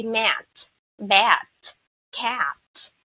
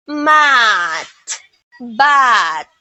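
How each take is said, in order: First: "mat, bat, cat" with the front a of American "cat"; English short A. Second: "mat, but" with long open ah, maht, baht; loud, drawn-out ah in "mat" and "but"; Filipino vowel. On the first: Teacher modeling English reading, front a in "mat, bat, cat". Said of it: "in English it should be". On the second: Teacher showing the Filipino reading, slow loud maht, baht. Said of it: "so I don't say". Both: Shown as a demonstration.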